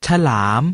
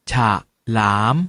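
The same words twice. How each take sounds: First: Said in the usual way. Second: ฉะ short, a pause, then หลาม; pronounced ฉะ-หลาม. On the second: Shown as a demonstration. Teacher breaks ฉลาม into ฉะ and หลาม for students. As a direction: split it as ฉะ ... หลาม. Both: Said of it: "ออกเสียงว่า".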